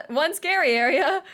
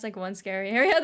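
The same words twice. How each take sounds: First: Raised, louder cry of dismay; alarmed, with the pitch climbing; mock alarm. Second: Said in the usual way. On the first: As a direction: echo it in playful disbelief.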